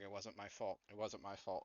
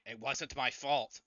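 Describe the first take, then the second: First: Muttering. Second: Loud, drawn-out protest; mock scream. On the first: Acted. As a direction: mutter it over and over to yourself. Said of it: "he starts muttering". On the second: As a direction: yell it in panic without a full scream. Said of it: "He starts screaming".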